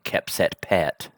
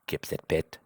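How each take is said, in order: First: The p and t have a strong breathy puff. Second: The p and t have no breathy puff. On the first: The speaker calls it wrong. "that sounds so American" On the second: The speaker calls it right. "We're going to say"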